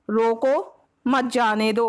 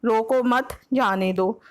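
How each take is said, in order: First: रोको on its own, a clear pause, then मत जाने दो run together; pause after रोको. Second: रोको मत as one phrase, a break, then जाने दो; pause after मत. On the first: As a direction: break after रोको, keep मत joined to जाने दो. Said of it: "पहला". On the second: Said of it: "और दूसरा". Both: Shown as a demonstration.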